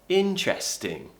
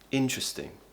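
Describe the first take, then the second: First: Said slowly with a clear 'eh' vowel. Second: Said faster with a weak 'uh' vowel. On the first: "I would say, oh, that's very interesting" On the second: "if I were to speak a little bit faster... that eh is becoming an uh, a schwa sound"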